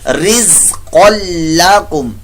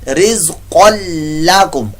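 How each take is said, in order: Both takes have the same delivery.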